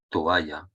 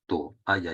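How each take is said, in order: First: Said in the usual way. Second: "toalla" split as to-alla; "toalla" with a hiatus, to; vowels separated. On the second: Shown as a demonstration. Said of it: "hay que separarlas".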